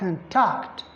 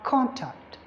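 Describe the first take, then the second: First: The stress is on the second syllable. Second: The stress is on the first syllable. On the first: It is used as a verb. "If it is a verb" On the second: It is used as a noun. "when it is used as a noun, ... because the primary stress is on the first syllable"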